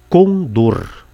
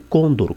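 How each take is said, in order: First: The stress is on the last syllable. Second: The stress is on the first syllable. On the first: The speaker calls it right. "A palavra, acredite, é condor" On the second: The speaker calls it wrong. "e não côndor, como pretendem alguns"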